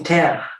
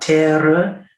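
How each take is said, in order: First: The word is pronounced in the ordinary French way. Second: The word is pronounced in an unusual, marked way. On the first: This is how it is normally said in French. The speaker calls it right. "We say terre" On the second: This is the composer's own special delivery. The speaker calls it wrong. "you want terre? We don't teach that in French. We don't say it in French"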